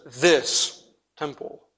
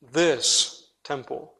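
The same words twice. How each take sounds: First: "this" drawn out slow and leaned on; slow, heavy weight on "this" in "this temple"; stress on this. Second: "This" slow and leaned on, tune lifting at the end; slow, questioning weight on "This" in "This temple"; stress on This, rising. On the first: Preacher pointing the congregation to the word "this". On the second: Preacher repeating the key word with a lift. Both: Shown as a demonstration. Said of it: "the emphasis is just this".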